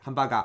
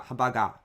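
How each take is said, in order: First: Hamburger said quickly with a clipped short ham; foreign short ham. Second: Hamburger with ham cut to one beat; quick, clipped hamburger; foreign short ham. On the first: Teacher imitating a learner who cuts hamburger short. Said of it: "If you don't have the concept of mora". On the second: Teacher imitating a learner who rushes hamburger. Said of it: "sounds a little bit weird". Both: Shown as a demonstration.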